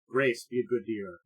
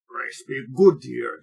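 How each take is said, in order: First: It is spoken in a plain, unaccented voice. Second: It is spoken in a put-on character accent.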